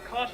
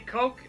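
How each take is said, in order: First: The name ends in a throaty ch sound. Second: The name ends in a hard k sound. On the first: This is how some other people say it. "some say Koch" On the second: This is how the speaker himself says it. "I say Coke"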